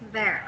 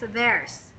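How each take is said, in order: First: The word ends without any s sound. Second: The word ends with an added s sound. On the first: The speaker calls it right. "no S, just there" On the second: The speaker calls it wrong. "what I heard is theirs"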